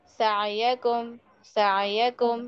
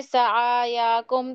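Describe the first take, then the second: First: सायाकुम slow and even, ain voiced but not jerked; correct pronunciation. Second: सायाकुम with the ain overstressed and the ya stretched; the mistaken way to say सायाकुम; सायाकुम said with an extra fatha on ain; wrong pronunciation. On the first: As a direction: model the correct सायाकुम gently. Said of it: "आइन पर इतना जोर मत दीजिए". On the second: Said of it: "गलती हो रही है". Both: Shown as a demonstration.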